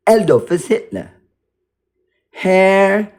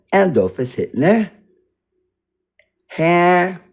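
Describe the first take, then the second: No difference in how they are said.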